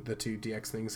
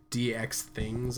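First: Said in the usual way. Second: "D X things" stretched out slowly; drawn-out D X things. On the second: Real, not acted. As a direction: linger on each part of "D X things". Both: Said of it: "why I said it like that".

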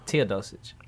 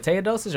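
First: Teodosic said with first syllable "tee"; Tee-uh pronunciation. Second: Teodosic said with first syllable "tay"; Tay-uh pronunciation. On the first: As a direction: say Teodosic as TEE-uh-DOH-sitch. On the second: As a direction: say Teodosic as TAY-uh-DOH-sitch. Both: Shown as a demonstration. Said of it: "Is it Teodosic or Teodosic".

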